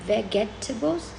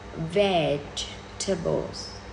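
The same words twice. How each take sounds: First: The word is said with four syllables. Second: The word is said with three syllables. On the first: The speaker calls it wrong. "You would say vegetables. No, no, no, no" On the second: The speaker calls it right. "It should be vegetables. only three syllables"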